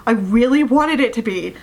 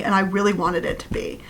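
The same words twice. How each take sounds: First: REALLY WANTED said with more weight; emphatic repeat. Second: Said in the usual way. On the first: Real, not acted. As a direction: lean firmly on "really wanted".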